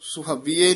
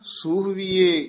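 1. ਪਹਿਲਾ ਸਵਰ ਛੋਟਾ ਹੈ। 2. ਪਹਿਲਾ ਸਵਰ ਲੰਮਾ ਹੈ।

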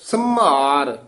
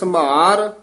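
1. ਇਹ ਸ਼ਬਦ ਭਾਰਾ ਬੋਲਿਆ ਜਾਂਦਾ ਹੈ, ਸਾਹ ਵਾਲੀ ਜ਼ੋਰਦਾਰ ਆਵਾਜ਼ ਨਾਲ। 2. ਇਹ ਸ਼ਬਦ ਹਲਕਾ ਬੋਲਿਆ ਜਾਂਦਾ ਹੈ, ਬਿਨਾਂ ਨਾਸਿਕ ਜਾਂ ਹਕਾਰ ਦੇ। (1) "ਯਾਨੀ ਭਾਰਾ ਉਚਾਰਨ ਕਰਨਾ।" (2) "ਪਹਿਲਾ ਸੰਭਾਰ ਹੈ, ਟਿੱਪੀ ਨੀ ਹੈਗੀ ਹੈ।"

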